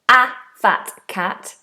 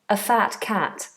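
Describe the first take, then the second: First: The word 'a' has a full, strong vowel. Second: The word 'a' has a weak schwa vowel. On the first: "here I didn't say a fat cat" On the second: "I said a fat cat. That's because the schwa sound"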